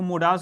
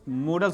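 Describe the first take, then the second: First: The second vowel is a long 'ah' sound. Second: The second vowel is a short, weak sound. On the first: The speaker calls it wrong. "इसको मोडाल्स नहीं बोला जाता" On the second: The speaker calls it right. "इसको मॉडल्स बोला जाता है"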